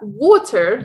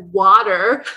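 First: It is said with a South African accent. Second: It is said with an American accent.

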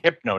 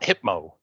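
First: The middle consonant is an n sound. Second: The middle consonant is an m sound. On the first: The speaker calls it right. "Hypno, not Hypmo" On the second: The speaker calls it wrong. "But I always pronounce it Hypmo"

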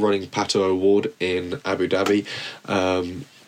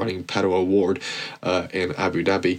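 First: It is said in a plain British accent. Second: It is said in an American accent.

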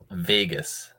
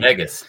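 First: The first vowel sounds like the vowel in bay. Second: The first vowel sounds like the vowel in peg. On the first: "I say Bay" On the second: "He says like peg, like veg"

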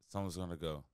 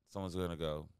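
The two takes are said the same way.

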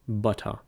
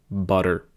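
First: The middle t is a clear, crisp t. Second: The middle t is a soft, d-like flap. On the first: "In RP, these would be realized as actual T's" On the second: "In American English, if a T occurs between two vowels, then it is often realized as a flapped T"

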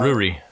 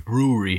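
First: The word is said quickly. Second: The word is said slowly, drawing out the ooh. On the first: "I said it fast" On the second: "you have to ooh it"

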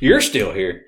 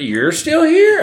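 First: The end is flat, like a statement. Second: The voice rises at the end, like a question.

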